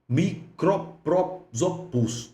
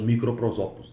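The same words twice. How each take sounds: First: The word is said at a slower pace. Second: The word is said very quickly. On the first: "Uma palavra difícil de pronunciar" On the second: "Como o colega fala assim bem rapidinho"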